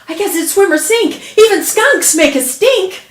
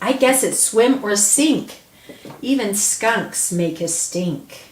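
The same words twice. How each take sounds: First: A short pause joins the two sentences. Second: A long pause separates the two sentences. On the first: The two ideas are joined by a semicolon. "we don't want a long pause there. We want them just close together" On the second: The two ideas stand as separate sentences. "those can sound separately"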